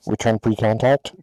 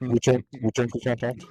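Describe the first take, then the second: First: Loud, crisp tanker radio call over the headset. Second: Loud radio call, repeated for effect. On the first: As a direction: bark it like a boom operator on the radio. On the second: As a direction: hammer it again like a tanker on comms. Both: Retold or imitated. Tanker boom operator radio call.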